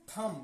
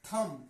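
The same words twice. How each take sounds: First: "थम" ending on m, no b sound; silent b. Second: "थम" read as spelt, with final b; as written. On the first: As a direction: close the lips on m to finish "थम". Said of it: "इस बी को नहीं पढ़ेंगे". ("थम" में ब silent, म पर खत्म) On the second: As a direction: sound out the b closing "थम". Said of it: "लिखा जाएगा". ("थम" के अंत में ब की आवाज़) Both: Shown as a demonstration.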